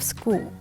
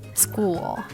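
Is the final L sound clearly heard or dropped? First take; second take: dropped; clearly heard. First: The final L sound is left out. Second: The final dark L is clearly heard. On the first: The speaker calls it wrong. "Don't simply omit this sound" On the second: The speaker calls it right. "It's supposed to be obvious in the words"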